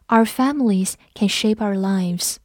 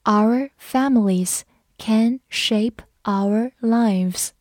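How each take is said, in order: First: Said in the usual way. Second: Our families can shape our lives said slowly; slow each word for the class; slow read-along. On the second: Shown as a demonstration. Teacher reading slowly so the class can repeat. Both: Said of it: "跟着我慢读一遍".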